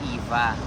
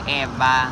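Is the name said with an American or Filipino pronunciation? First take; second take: American; Filipino. First: The name is said with an American pronunciation. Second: The name is said with a Filipino pronunciation. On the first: This is how people in America say it. "pinopronounce po dito ay Eva" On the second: This is how people back home say it. "sa atin kasi 'di ba Eva?"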